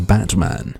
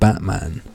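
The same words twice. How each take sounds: First: The T in the middle is clearly pronounced. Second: The T in the middle is left out. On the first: The speaker calls it right. "And I say Batman" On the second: The speaker calls it wrong. "not Batman. Like degenerate Americlaps who miss out the T"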